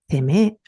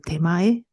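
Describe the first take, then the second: First: The word ends in a long ee sound. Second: The word ends in an ai sound. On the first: It is used to insult people. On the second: It is not vulgar.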